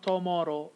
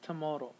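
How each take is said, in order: First: The unstressed vowel is a full vowel. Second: The unstressed vowel is reduced to schwa. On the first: The speaker calls it wrong. "it's not tomorrow" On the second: The speaker calls it right. "you're going to have a schwa here"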